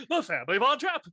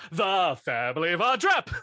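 First: High, laughing grand announcement; mock announcer. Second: A grand contest announcer call, slightly raised; mock announcer. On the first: Friend replaying the spotlight moment, high laughing announcer. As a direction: call the winner out like a pageant host. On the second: Friend re-enacting the contest result, mock announcer. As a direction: announce the winning family with a rising finish.

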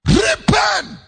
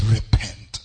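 First: Repent shouted high and loud. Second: Said in the usual way. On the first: Acted. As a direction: thunder the call to repent. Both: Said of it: "So Jesus said".

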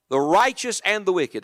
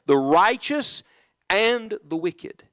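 First: Said in the usual way. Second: Each word drawn out slowly and deliberately; slow careful reading. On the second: Shown as a demonstration. Preacher having the church read the verse carefully, slowly. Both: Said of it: "look at the verse, please, carefully".

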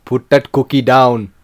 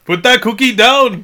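First: Low, slow Schwarzenegger voice; friend's decent action-hero impression; Arnold impression. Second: High, loud, slow failed Schwarzenegger shout; failed action-hero impression, shouted; bad Arnold impression. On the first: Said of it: "Can you do one?". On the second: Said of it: "I can't do an Arnold Schwarzenegger".

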